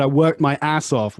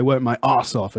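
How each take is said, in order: First: "I worked my ass off" with an American r in worked and a flat a in ass. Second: "Work my ass off" with no r in work and a broad British a in ass. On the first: Retold or imitated. Teacher quotes the student's American way. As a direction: imitate her American "worked". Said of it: "You said". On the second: Shown as a demonstration. Teacher gives his own British version. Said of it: "whereas I would say".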